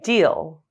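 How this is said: The pitch falls at the end. "falling intonations"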